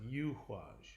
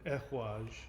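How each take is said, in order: First: The name begins with a 'y' sound. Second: The name begins with a plain vowel sound. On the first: It echoes the word for the yew tree. "that's how I pronounce it" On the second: This is the common way people say it. "people pronounce this rune Ehwaj"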